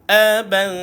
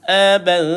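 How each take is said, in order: First: The ending is a soft, hidden nasal hum. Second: The same.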